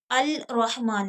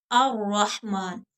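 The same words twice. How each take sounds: First: अल रहमान with a clear separate l; wrong al pronounced. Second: अर रहमान slowly, l merged into doubled r; lam hidden. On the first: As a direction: sound the lam in अल रहमान as the wrong way. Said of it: "अल रहमान नहीं पढ़ेंगे". (अल रहमान, लाम ज़ाहिर करके (ग़लत)) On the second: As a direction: drop the l, say अर रहमान as ar-rahman. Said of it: "लाम को छुपा देंगे". (अर रहमान धीरे, लाम छुपाकर) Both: Shown as a demonstration.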